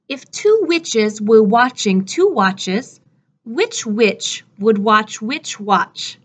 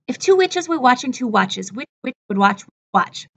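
First: The sentence is said at a moderate pace. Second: The sentence is said at a very fast pace.

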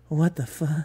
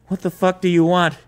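First: It is said as a frightened whimper. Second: It is said in an angry, commanding tone.

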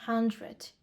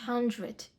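Both takes have the same delivery.

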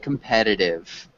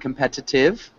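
First: The t near the end sounds like d. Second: The t near the end is a clear t. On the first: "it almost has a D sound at the end" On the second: "instead of saying competitive"

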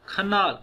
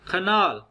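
Both takes have the same delivery.

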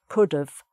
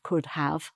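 First: The word 'have' is reduced to a v sound. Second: The word 'have' is said in full. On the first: "just a V sound at the end" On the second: "instead of could have"

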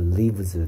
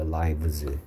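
First: The vowel sounds like 'it'. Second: The vowel sounds like 'eye'. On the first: It is the verb meaning someone dwells somewhere. "live에 does가 들어간 거니까 lives" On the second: It is the plural of the noun meaning life. "life의 복수형이니까 얘는 lives가 되는 거야"

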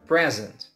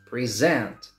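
First: The stress is on the first syllable. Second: The stress is on the second syllable. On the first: It is a noun: a gift. "a noun, the first syllable is stressed" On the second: It is a verb: to show or give. "But present as a verb, the last syllable is stressed"

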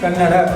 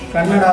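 First: The word is said with a native-sounding pronunciation. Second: The word is said with a foreign-sounding pronunciation. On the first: The speaker calls it right. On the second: The speaker calls it wrong.

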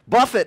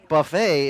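First: The word is pronounced the plain English way. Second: The word is pronounced the French way. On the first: "buffet is beat it into submission" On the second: "the French way of saying"

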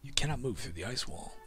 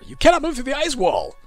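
First: It is said in a flat, plain way. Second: It is said loudly, like an exclamation.

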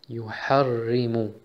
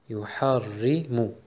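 Both takes have the same delivery.

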